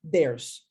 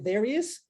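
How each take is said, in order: First: The two words are contracted into one syllable. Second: Both words are said in full and separately. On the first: "contraímos there's" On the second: "A pronúncia seria there is"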